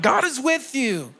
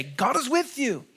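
First: Loud and proud. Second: Said in the usual way. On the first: Shown as a demonstration. Pastor urges the congregation to tell each other, loud and proud. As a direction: say "God is with you." out loud, with pride. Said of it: "tell them loud and proud". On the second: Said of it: "encourage them and say".

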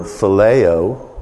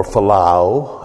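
First: Phileo said fil-LAY-oh; first pronunciation variant. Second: Philao said fil-LAH-oh, slowly; alternative pronunciation. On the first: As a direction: stress the middle of phileo, as "LAY". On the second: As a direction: open the middle of philao to "LAH". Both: Shown as a demonstration. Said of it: "however you want to say it".

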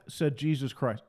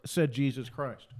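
First: Said in the usual way. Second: Said Jesus Christ drawn out slowly, each word weighted; deliberate, slow repetition; slow, emphatic close. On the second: Shown as a demonstration. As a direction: land the final said Jesus Christ slowly and heavily.

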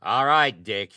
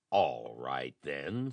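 First: Loud, high sharp snap; a loud angry snap at Dick; snapped. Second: A low, grudging mild snarl; understated low snarl. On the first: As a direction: bite the words off at him. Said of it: "he snapped". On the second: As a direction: give in with a lowered growl. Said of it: "snarled Nelson". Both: Acted.

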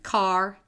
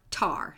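First: Said in the usual way. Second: "tar" for car, t replacing k; fronting. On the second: Shown as a demonstration. Showing how kids front car, said "tar". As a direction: front the first sound: "tar". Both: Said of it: "it's called fronting".

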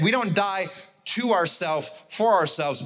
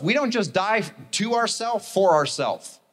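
First: Slow, split into "to ourselves", "for ourselves"; stress with pauses. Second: Slow, weighted "to ourselves for ourselves"; stress on TO, FOR. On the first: Preacher repeating a missed point, pausing around "to ourselves". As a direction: pause before "to" and before "for". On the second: Preacher making a point about selflessness, slow stressed "to" and "for". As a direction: lean on "to" and "for", higher pitch. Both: Shown as a demonstration. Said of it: "You didn't catch that".

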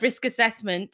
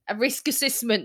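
First: Said in the usual way. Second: "assessment" said as "a-SISS-ment"; mispronounced word. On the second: Real, not acted. Tripping over council paperwork terms, mispronouncing "assessment" as "assissment". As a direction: slip on "assessment", middle vowel as a short i. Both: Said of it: "that's not the word".

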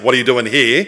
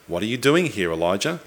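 First: Mock reproachful question, lightly pressed; mildly angry tone. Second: Softer, gently inviting question; gracious question. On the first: Preacher imitating a misreading of God's question, mildly angry. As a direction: ask it with a touch of accusation. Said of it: "read an angry tone into that question". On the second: Acted. God inviting Elijah to voice his complaint, gracious. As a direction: ask it softly, as an invitation. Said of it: "the question's a gracious one".

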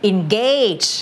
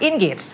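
First: "engage" with a long, stressed GAYGE; in-GAYGE, full AY vowel in "engage"; stressed second syllable. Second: "engage" misread as IN-gidge; wrong short ending. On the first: Shown as a demonstration. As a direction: lean slowly on the end of "engage". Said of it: "นอกจากมัน stress". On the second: Retold or imitated. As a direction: mimic "engage" with a weak, short last vowel. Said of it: "เราก็ไม่อ่าน engage".

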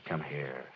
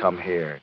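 First: Hushed. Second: Tender. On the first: Husband comforts wife, softer repeat. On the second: Husband comforts wife. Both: Acted.

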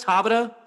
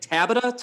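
First: Tabata? with an open A, tah-BAH-tuh, rising and a bit louder; second try at pronunciation. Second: Tabata? with a flat A, TAB-uh-tuh, rising like a question; trying a pronunciation. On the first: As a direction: say Tabata? with a broad ah sound, still unsure. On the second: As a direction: say Tabata? with the A as in cat, asking. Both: Shown as a demonstration. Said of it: "How do you say it?".

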